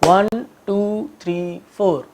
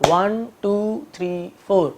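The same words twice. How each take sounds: The two takes are said the same way.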